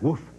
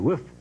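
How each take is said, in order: First: The word has an 'oo' vowel sound. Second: The word has an 'i' vowel sound. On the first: "rather than woof. Like a dog" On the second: "woof with an I"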